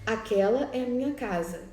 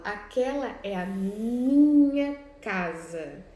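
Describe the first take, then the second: First: Minha lifted and held a little longer; stress on minha. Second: Slow, louder, minha drawn out and rising; teacher showing how Leonard stresses minha. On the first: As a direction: read it with weight on minha. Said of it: "o destaque em itálico no pronome possessivo, minha". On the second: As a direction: dwell on minha, claiming the house firmly. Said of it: "Então, quando ele fala". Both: Shown as a demonstration.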